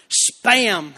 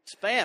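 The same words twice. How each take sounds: First: Laughing through the word Spam, louder. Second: Said in the usual way. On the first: Real, not acted. Preacher laughing at his own Spam joke. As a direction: blurt "Spam" while cracking up. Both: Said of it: "y'all are already laughing".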